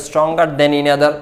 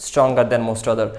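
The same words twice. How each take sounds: First: Slow example read. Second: Slow spelled-out example. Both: Shown as a demonstration. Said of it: "example করতে".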